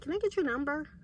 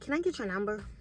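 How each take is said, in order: First: It is said in an odd, strange put-on voice. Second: It is said in an ordinary, natural voice. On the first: The speaker calls it right. "He had like a weird type of voice" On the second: The speaker calls it wrong. "he didn't say it like that"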